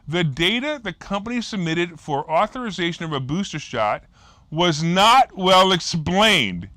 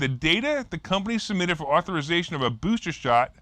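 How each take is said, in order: First: It is read slowly and deliberately. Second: It is read at normal speed.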